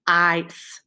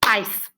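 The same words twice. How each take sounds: First: "ice" stretched out as if more than one part; wrongly lengthened word. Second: "Ice" in a single compact beat; one short syllable. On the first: Teacher shows the mistake, "ice" made too long. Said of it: "don't have to make it longer than it is". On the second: Teacher shows the correct way, "Ice" as one beat. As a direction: say "Ice" once, without stretching it. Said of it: "Watch this". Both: Shown as a demonstration.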